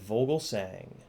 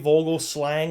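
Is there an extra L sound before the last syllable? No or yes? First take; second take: no; yes. First: No extra L sound comes before the last syllable. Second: An extra L sound comes before the last syllable. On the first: The speaker calls it right. "I said Vogelsang" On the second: The speaker calls it wrong. "I didn't say Vogelslang like I always do"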